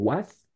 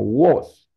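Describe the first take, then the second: First: The vowel is a wide open a sound. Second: The vowel is a more closed sound. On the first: The speaker calls it wrong. "no se pronuncia con a, a, a, como was" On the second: The speaker calls it right. "sino con una a cerrada"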